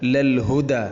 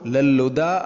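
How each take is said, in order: First: The h sound is clearly pronounced after the l. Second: The h sound is dropped and the l doubles. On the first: The speaker calls it right. "ശ്രദ്ധിച്ചുകൊണ്ട് ഹാ ഇനെ ഉച്ചരിക്കണം" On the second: The speaker calls it wrong. "ലല്ലുദ അല്ല"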